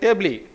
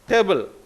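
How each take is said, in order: First: The word ends with an 'ee' vowel sound. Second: The word ends with a syllabic 'l' sound. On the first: The speaker calls it wrong. "We don't call it tably" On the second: The speaker calls it right. "T A B L E, table"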